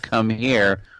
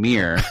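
First: Both words are said clearly at a normal pace. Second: The words are rushed together into one quick word. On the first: "Instead of saying" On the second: "She says it so quickly"

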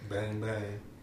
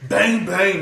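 First: It is said plainly with little emphasis. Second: It is said loudly with strong emphasis.

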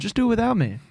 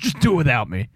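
First: It is said in a plain, neutral way. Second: It is said like an angry Vince.

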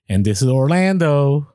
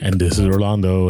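First: The name is said slowly with clear enunciation. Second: The name is run together quickly and slurred. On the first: The speaker calls it right. "that's more enunciating" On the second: The speaker calls it wrong. "Did I fly through my name? Like, did I just slur it?"

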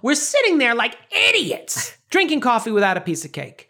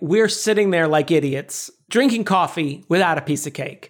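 First: It is said in an Estelle impression voice. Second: It is said in the speaker's own voice.

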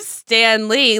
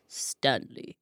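First: The voice stays at its normal pitch. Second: The voice drops to a deep, low pitch. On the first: It refers to the famous comic creator. "Instead of Stan Lee" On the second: It refers to a different person than the famous creator. "when you say Stanley, your voice got low"

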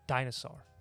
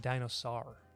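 First: It has the usual English pronunciation. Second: Each letter is read with Spanish sounds. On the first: The speaker calls it right. "Like the way I just said it" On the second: The speaker calls it wrong. "So I would say dinosaur"

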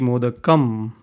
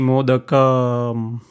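First: The final 'am' is closed off very quickly. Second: The final 'am' is drawn out, not closed quickly. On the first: The speaker calls it right. "Am has to close very fast" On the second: The speaker calls it wrong. "it cannot be modakam"

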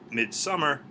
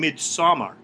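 First: The word is pronounced like 'midsummer'. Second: The word is pronounced the way it is spelled. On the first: The speaker calls it right. "but I guess it's still Midsommar" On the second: The speaker calls it wrong. "Which I'd always been calling Midsommar. ... Because of the way it's spelled"

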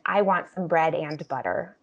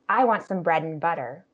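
First: The word 'and' is said fully and carefully. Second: The word 'and' is reduced to an n sound.

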